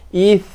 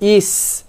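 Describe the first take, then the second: First: It ends with a soft th sound, no hiss. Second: It ends with a hissing s sound. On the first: The speaker calls it right. "jaga tha. Ith bukannya is" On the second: The speaker calls it wrong. "kalau kita baca is, dua kesalahan yang utama kita buat"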